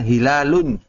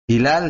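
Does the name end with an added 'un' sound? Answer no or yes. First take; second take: yes; no. First: The name ends with an added 'un' sound. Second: The name ends plainly without an added ending.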